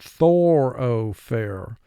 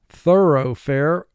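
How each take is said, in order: First: The middle syllable has a full 'o' vowel. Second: The middle syllable is reduced and quick.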